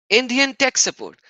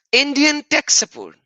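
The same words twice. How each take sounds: The two takes are said the same way.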